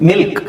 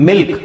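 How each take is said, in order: The two takes are said the same way.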